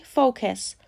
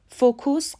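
First: فوکس said fo-kes, short o; correct pronunciation. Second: فوکوس said fo-kus, the wrong way; wrong pronunciation. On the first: Teacher giving the correct فوکس, fo-kes. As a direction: say فوکس as fo-kes, not fo-kus. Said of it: "تلفظ صحیح فوکس". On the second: Teacher showing the wrong فوکوس, fo-kus. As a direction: demo the mistaken فوکوس, fo-kus. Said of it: "فوکوس غلطه". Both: Shown as a demonstration.

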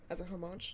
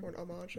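First: "homage" with the h pronounced; homage with sounded h. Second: "homage" French-style, h dropped; homage with silent h. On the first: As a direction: say "homage" with an audible h at the start. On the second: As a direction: say "homage" starting on the vowel, no h. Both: Real, not acted. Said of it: "or however you pronounce it".

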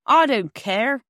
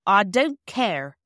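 First: Louder angry outburst. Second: Slow, firm and louder; firmly. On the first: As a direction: refuse it, loud and angry. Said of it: "rather loud and angry". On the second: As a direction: spell it out firmly, slowly. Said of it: "said Perks firmly". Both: A narrator's reading.

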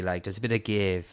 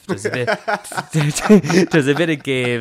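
First: Said in the usual way. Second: Repeats it through laughter; laughing. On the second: Real, not acted. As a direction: laugh it out, louder. Laughing while retelling the crash.

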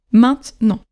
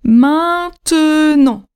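First: "maintenant" as maint-nant, slight gap between; short two-syllable "maintenant", no e after the t; two oral syllables. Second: "maintenant" drawn out as main-te-nant, higher pitch; very slow, stretched "maintenant" in three syllables; three written syllables. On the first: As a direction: demonstrate "maintenant" in two beats, middle e dropped. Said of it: "Deux syllabes". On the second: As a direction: sound the middle e long in "maintenant". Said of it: "Trois syllabes". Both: Shown as a demonstration.

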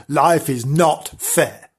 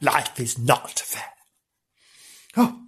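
First: Life is not fair dragged out slowly, each word weighed; slow solemn verdict. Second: Low, soft and slow, sinking into self-pity; mock mournful. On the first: Acted. Narrator to Frank, slow solemn mock sermon. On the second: Thinking of her own life, low and slow self-pity. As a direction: sigh it out like a tired martyr.

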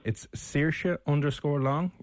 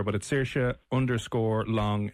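First: "Saoirse" said slowly and clearly, "Long" drawn out; slow careful name. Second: "Saoirse" said slowly and clearly again; clarifying name. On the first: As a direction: say "Saoirse underscore Long" slowly, each part distinct. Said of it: "Do you want me to spell that for you?". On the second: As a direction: repeat "Saoirse underscore Long" slowly. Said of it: "Saoirse Ronan?". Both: Real, not acted.

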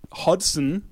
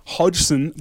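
First: Hodgson misread as HOD-sən; misread name. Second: Hodgson as HODGE-sən; second try at Hodgson, dg as in "lodge"; corrected name reading. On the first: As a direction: stumble onto Hodgson as "hod-sun", unsure. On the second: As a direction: say Hodgson with a j sound, "hodge-sun". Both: Real, not acted. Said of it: "Sorry, I couldn't read that".

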